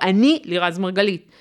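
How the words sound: The voice falls at the end like a statement. The speaker states her identity with confidence. The speaker calls it right. "סטייטמנט מאוד ברור"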